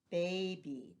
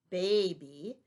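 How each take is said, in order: First: Said in the usual way. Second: Put-on "baby" said louder, the two syllables marked apart with a lift at the end; syllables stressed. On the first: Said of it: "our last syllabic word is baby". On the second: Shown as a demonstration. Teacher showing pupils where the syllable break in baby falls, louder. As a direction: split "baby" into ba and by, pushing out the sound. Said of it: "So we divide it between the A and the B".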